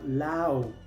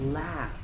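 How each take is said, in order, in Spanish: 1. La palabra termina sin sonido f. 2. La palabra termina con sonido f. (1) "En muchos casos la G H es muda" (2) "la G H se pronuncia como F"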